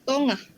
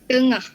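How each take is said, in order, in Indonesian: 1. Ini dilafalkan dalam dialek Negeri Sembilan. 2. Ini dilafalkan dalam bahasa Melayu standar. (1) "Untuk dialek Negeri Sembilan" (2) "bahasa Melayu standard"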